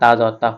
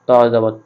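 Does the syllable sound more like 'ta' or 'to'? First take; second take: ta; to. First: The vowel is open and light, like 'ta'. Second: The vowel is dark and rounded, like 'to'. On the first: The speaker calls it wrong. "আমরা এটা অনেকে তা জবর তা পড়ি" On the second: The speaker calls it right. "কিন্তু এটা ত পড়তে হবে"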